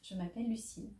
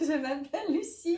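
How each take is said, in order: First: It is said with only a little joy. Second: It is said with much stronger joy.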